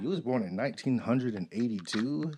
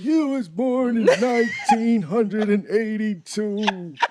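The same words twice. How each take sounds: First: It is said in a normal voice. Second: It is said in a put-on old voice.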